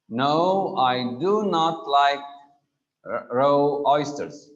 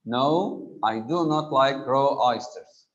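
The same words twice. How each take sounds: First: Loud and firm, DO and NOT hit hard, slowing on r-, raw oysters; emphatic denial. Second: A firmer No, with DO and NOT leaned on but less loud; emphatic do. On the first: Teacher demonstrating an emphatic denial to the class, loud and firm. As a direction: flatly refuse with DO NOT punched. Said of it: "Emphasizing a statement / denying a contrary assertion". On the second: Teacher repeating the emphatic example for students, firmer. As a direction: restate the denial with weight on DO. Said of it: "This is in the negative". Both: Shown as a demonstration.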